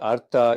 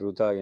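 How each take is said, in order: First: The word begins with a syllabic r sound. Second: The word begins with a roo sound. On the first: The speaker calls it right. "ஆனால் உண்மையில் இது அர்த்தா என்று உச்சரிக்கப்படுகிறது" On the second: The speaker calls it wrong. "தென்னிந்தியாவில் ருதா என்று உச்சரிக்கிறார்கள்"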